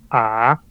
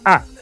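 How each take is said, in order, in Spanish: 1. El tono es muy bajo. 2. El tono baja. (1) "el tercero es A, es más grave" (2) "el cuarto es descendente"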